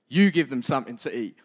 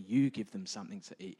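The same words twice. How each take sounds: First: It is said bluntly and forcefully. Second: It is said gently and softly. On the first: It is a blunt command. "he might have just turned around and gone, you lot, man" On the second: It is a kind suggestion. "He maybe has said it a little bit nicer"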